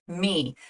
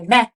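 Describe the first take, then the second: First: The word has a long E vowel. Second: The word has a short E vowel. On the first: The speaker calls it right. "the E is making the long E sound" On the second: The speaker calls it wrong. "It's not making a short E sound. We don't say meh"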